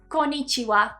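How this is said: The word is split into four syllable beats. "if we split it into syllables like we do in English"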